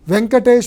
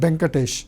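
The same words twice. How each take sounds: First: The name begins with a V sound. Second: The name begins with a B sound.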